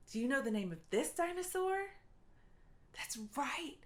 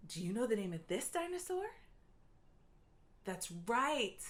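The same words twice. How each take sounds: The two takes are said the same way.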